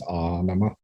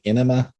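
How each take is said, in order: First: The first vowel sounds like 'ah', as in anima. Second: The first vowel sounds like 'eh', as in enema. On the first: The speaker calls it right. "but it's Anima" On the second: The speaker calls it wrong. "Some people get it wrong and say enema"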